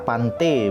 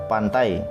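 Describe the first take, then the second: First: The word ends with the vowel sound e. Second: The word ends with the vowel sound ai. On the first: This is the Balinese dialect pronunciation. "dialek Bali, dia akan bersuara pante" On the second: This is the modern Indonesian pronunciation. "dia bersuara ai"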